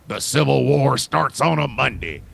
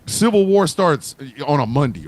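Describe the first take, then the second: First: Slower repeat, each word laid down deliberately; slow emphatic restatement. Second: Said in the usual way. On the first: Shown as a demonstration. Comedian repeating his point slowly for emphasis. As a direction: say it again slowly so it lands.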